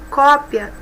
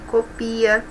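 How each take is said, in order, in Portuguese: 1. O acento está na primeira sílaba. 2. O acento está na segunda sílaba. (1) "um é substantivo" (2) "outro é verbo"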